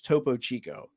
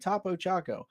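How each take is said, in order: First: The second word has an 'ee' vowel. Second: The second word has an 'ah' vowel. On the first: The speaker calls it right. "No, it's" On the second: The speaker calls it wrong. "You were like"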